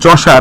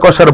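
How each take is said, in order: First: The name begins with a 'ch' sound. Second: The name begins with a 'k' sound. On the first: The speaker calls it right. "প্রোনাউন্সিয়েশনটা হবে এরকম" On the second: The speaker calls it wrong. "অনেকে কসার কসার বলে"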